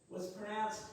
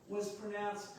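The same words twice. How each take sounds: Both takes have the same delivery.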